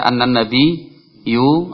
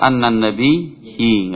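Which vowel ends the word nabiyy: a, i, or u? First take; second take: u; i. First: The word ends with a u vowel. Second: The word ends with an i vowel. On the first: "Enggak boleh dibaca" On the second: "Enggak boleh"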